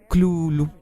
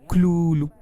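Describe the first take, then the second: Both takes have the same delivery.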